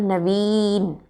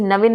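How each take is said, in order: First: नवीन with a stretched "veen"; long ई. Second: नवीन as "na-vin", short इ; wrong short vowel. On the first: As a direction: draw out the ई in नवीन. (नवीन में लंबी ई) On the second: (नवीन को नविन जैसा) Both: Shown as a demonstration. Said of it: "नवीन नहीं होता है".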